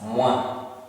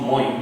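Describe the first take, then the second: First: It is pronounced 'mwa', ending in an 'ah'. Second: It is pronounced 'moy', rhyming with 'boy'. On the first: The speaker calls it right. "O I pronounces as wa" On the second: The speaker calls it wrong. "don't think it is the retired president Moi. It is not Moi"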